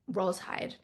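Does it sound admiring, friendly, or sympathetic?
sympathetic. It sounds like gentle, sympathetic condolence.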